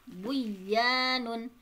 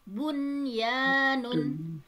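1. Bunyi n melebur ke dalam y. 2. Bunyi n diucapkan jelas sebelum y. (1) "tidak dibaca" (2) "dibacanya izhar atau jelas"

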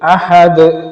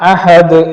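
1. അവസാന വ്യഞ്ജനം കേൾക്കാവുന്ന ഒരു കുതിപ്പോടെ വിടുന്നു. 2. അവസാന വ്യഞ്ജനം കേൾക്കാവുന്ന ഒരു കുതിപ്പോടെ വിടുന്നു.

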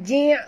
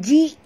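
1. Diakhiri dengan bunyi ain tenggorokan yang kuat. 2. Diakhiri dengan hamzah biasa. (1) "bunyikan ain betul-betul. Bunyi ji'" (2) "bukan ji'"

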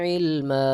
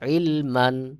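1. শব্দটি দীর্ঘ 'a' স্বরধ্বনি দিয়ে শেষ হয়। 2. শব্দটি 'n' ধ্বনি দিয়ে শেষ হয়। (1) "এক জবর উচ্চারণ করে এক আলিফ টান দিয়ে" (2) "মিমের উপরে দুই জবর রয়েছে"

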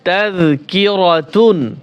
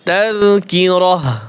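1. শব্দটি t ধ্বনি ও -un দিয়ে শেষ হয়। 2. শব্দটি একটি মৃদু h ধ্বনি দিয়ে শেষ হয়। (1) "মূলত ছিল কি তাযকিরাতুন" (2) "এখন ওয়াকফ করলে এখানে উচ্চারণ হবে তাযকিরাহ"

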